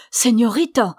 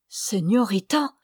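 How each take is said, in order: First: Señorita said aloud, louder and charged; said aloud with feeling. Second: Said in the usual way. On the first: A narrator's reading. Alessandro repeating Señorita aloud to himself with feeling. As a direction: repeat Señorita out loud with striking intensity. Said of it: "Il répéta tout haut d'un tel accent". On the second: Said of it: "Il répéta tout haut".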